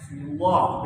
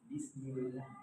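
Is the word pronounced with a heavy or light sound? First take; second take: heavy; light. First: The word is pronounced heavy and thick. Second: The word is pronounced light and thin. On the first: The task ahead feels burdensome. The speaker calls it wrong. "Cara mengucapkannya aja Pak Ustaz itu berat kali" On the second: The task ahead is made easy. The speaker calls it right. "Jadi dia tipis kan?"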